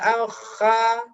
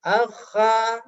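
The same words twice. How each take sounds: The two takes are said the same way.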